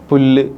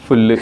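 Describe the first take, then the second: First: The word begins with a plain p sound. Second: The word begins with an f sound. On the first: This is the standard form of the word. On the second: This is the local dialect form.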